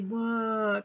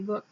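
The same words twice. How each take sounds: First: The vowel is drawn out and long. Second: The vowel is short and clipped. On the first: The speaker calls it wrong. "You wouldn't say book" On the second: The speaker calls it right. "you'd say book"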